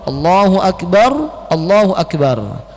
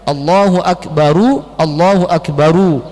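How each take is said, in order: First: The first Akbar ends in a stop. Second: The first Akbar ends with a u vowel. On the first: The ending is dropped for a pause. "dimatikan, diwaqaf" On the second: This is the original full form. "asalnya Allahu Akbaru"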